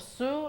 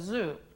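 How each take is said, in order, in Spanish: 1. El primer sonido es una s sorda, silbante. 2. El primer sonido es una z sonora, zumbante. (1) "las cuerdas vocales no están vibrando y está mal" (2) "en inglés se dice zoo"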